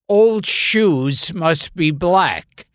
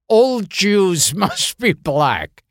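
First: It is said in a plain, unaccented voice. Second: It is said in a put-on Spanish accent. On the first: The speaker calls it right. "the line is supposed to be" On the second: The speaker calls it wrong. "it comes across very clearly in my Spanish accent as"

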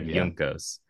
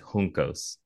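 First: The J is pronounced as in English. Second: The J is pronounced as in Spanish. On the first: The speaker calls it wrong. "instead of Juncos" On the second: The speaker calls it right. "like you would in Spanish"

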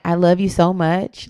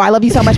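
First: It is said slowly and calmly. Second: It is said fast and rushed.

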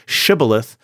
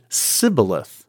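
First: The word begins with a 'sh' sound. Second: The word begins with an 's' sound. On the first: This is the standard pronunciation of the word. "they cannot say shibboleth" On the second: This pronunciation reveals the speaker's dialect group. "but instead pronounce it sibboleth"

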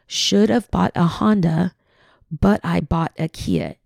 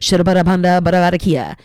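First: It is said at normal speed. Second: It is said very fast.

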